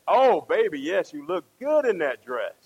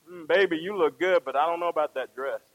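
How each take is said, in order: First: Emphatic mock gushing compliment. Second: Gently hesitant, doubtful compliment; tactful truth. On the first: Husband answering wife about her dress, mock gushing. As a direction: lay on the flattery for a wife. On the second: Acted. Husband being truthful to wife about dress, mildly doubtful. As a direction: let her down gently. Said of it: "Now you're being truthful".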